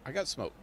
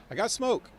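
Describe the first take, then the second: First: Said in the usual way. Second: Higher and louder, thrilled to find it; "I got smoke" popping up high and loud with glee; excited. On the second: Real, not acted. Gamer cheering that he had smoke all along, excited.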